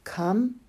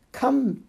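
First: Said in the usual way. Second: High urgent call. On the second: Acted. Preacher pleading with the thirsty, a high falling Come. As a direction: Come pitched high and falling, a little louder. Higher repeated invitation.

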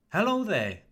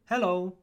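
First: "Hello there" high on HELLO, falling on there; warmer greeting. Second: Said in the usual way. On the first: Shown as a demonstration. Teacher contrasts greeting with just hello, warmer greeting. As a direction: greet warmly, "Hello there" lifted then dropping. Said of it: "It sounds warmer". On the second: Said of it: "Much better than just".

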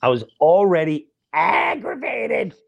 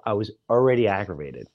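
First: "already aggravated" dragged out higher and slower; slow, emphatic repeat. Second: Said in the usual way. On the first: Shown as a demonstration. Comic repeating his point to the crowd, slow and emphatic. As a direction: lean hard into "already" on the repeat.

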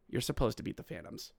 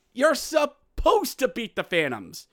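First: Said in the usual way. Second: High, emphatic comic scolding; Chris Rock. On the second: Acted. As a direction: hammer it like an exasperated stand-up comic. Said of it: "to quote the great philosopher Chris Rock".

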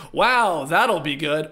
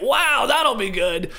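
First: Unimpressed sarcastic wow. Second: High, slow, delighted wow; genuinely pumped. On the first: Host showing one reading of a player's reaction, sarcastic. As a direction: say it with dry sarcasm, held down. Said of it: "you can say that sarcastically". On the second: Host showing the sincere reading of a player's reaction, pumped. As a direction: say it thrilled, pitched up and stretched out. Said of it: "Or you can say it". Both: Shown as a demonstration.

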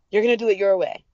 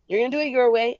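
First: Said in the usual way. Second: "your" lifted much higher and leaned on; stress on your. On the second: Retold or imitated. Repeating her vow to herself, stressing "your". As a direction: hit "your" hard, higher than the rest. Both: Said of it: "that's when I told myself".

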